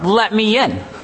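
It is said with a proud, contemptuous tone. The speaker feels entitled to enter. The speaker calls it wrong.

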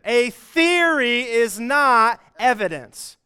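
It is said forcefully, with strong conviction.

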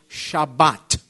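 It is said in the Sephardic, Israeli way.

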